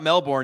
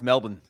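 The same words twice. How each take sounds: First: The final syllable is said full, like 'born'. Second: The final syllable is reduced to a weak 'bn'. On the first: This is the old way of saying it. The speaker calls it wrong. "Now it's not Melbourne anymore" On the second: This is the corrected, local way of saying it. The speaker calls it right. "It's Melbourne"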